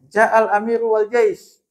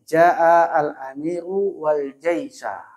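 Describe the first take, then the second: First: The last word ends with no final vowel. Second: The last word ends with an a vowel. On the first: It is unclear which meaning is intended. "Gimana kalau saya wakof misalnya?" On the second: They came together at the same time. "Kenapa al-jaisa dibaca nasab?"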